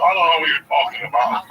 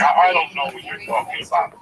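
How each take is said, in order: First: Hint of a Thurston Howell snob, slightly louder; lightly hammed aristocrat denial; snooty rich man. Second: Mock upper-crust denial, a touch haughty; snooty rich man. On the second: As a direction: play a lightly voiced snob feigning innocence. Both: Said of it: "He's like Thurston Howell the third".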